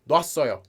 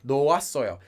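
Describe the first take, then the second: First: Said fast, the first syllables merge into one. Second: Every syllable is said separately and slowly.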